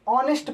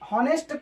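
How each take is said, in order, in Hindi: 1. इस शब्द की शुरुआत बिना 'h' ध्वनि के होती है। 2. इस शब्द की शुरुआत 'h' ध्वनि से होती है। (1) "ऑनेस्ट पढ़ते हैं" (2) "हॉनेस्ट को ऑनेस्ट पढ़ते हैं"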